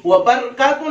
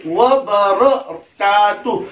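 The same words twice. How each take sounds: First: Quick व बरकातुहु squashed to 'wa barkatu'; hurried, higher व बरकातुहु; wrong pronunciation. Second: Slow व बरकातुहु, 'wa ba-ra-kaa-tu'; measured व बरकातुहु with full 'ra'; correct pronunciation. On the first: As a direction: swallow the vowel after r in व बरकातुहु. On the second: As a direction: stretch व बरकातुहु syllable by syllable. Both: Shown as a demonstration. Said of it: "नहीं".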